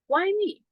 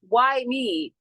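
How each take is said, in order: First: It sounds like a curious, open question. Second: It sounds like a complaining victim.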